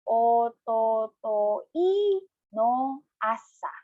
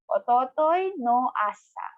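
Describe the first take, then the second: First: It is said slowly, syllable by syllable. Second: It is said at a normal, fluent speed.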